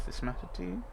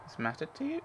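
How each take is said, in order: First: "mattered" leaned on, quiet and questioning; trying the line with weight on "mattered"; stress on mattered. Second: "you" stressed with a rising question tune. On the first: Streamer re-reading the game line, stress on "mattered". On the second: Streamer testing the game line again, rising stress on "you". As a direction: ask it leaning up on "you". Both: Shown as a demonstration. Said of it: "this isn't how it happened".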